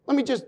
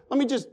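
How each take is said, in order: Both takes have the same delivery.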